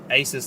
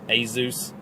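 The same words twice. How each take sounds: First: The middle consonant is an S sound. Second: The middle consonant is a Z sound. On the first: The speaker calls it right. "is the correct way to say it" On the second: The speaker calls it wrong. "I always called it Asus. I know there's no Z in there anywhere"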